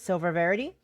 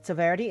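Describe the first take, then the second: First: The syllable 'ver' is said twice in a row. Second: The syllable 'ver' is said only once. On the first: The speaker calls it right. "It's Silver Verity" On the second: The speaker calls it wrong. "I've apparently been mispronouncing the whole time"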